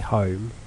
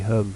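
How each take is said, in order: First: It is said with a standard English vowel. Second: It is said with a Norfolk vowel. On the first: "we don't say home" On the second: "We say hum"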